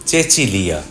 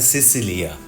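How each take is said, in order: First: The name begins with a ch sound. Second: The name begins with an s sound. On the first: "কিন্তু আমি বলছি চেচিলিয়া" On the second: "বানান দেখে নামটা মনে হয় সিসিলিয়া"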